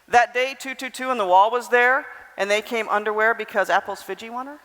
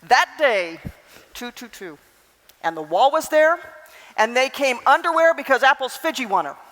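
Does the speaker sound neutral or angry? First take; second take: neutral; angry. First: It is said in a flat, neutral tone. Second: It is said in an angry, upset tone. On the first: Nothing about the speaker's feelings comes across. "So you don't really know anything at that point" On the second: The speaker is upset about something. "Am I angry? Upset, maybe?"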